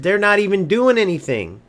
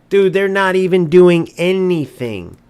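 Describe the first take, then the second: First: Said in the usual way. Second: Louder, hitting doing hard; exasperated outburst at the players; louder exasperated repeat. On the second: Real, not acted. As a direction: say it again, fed up and louder.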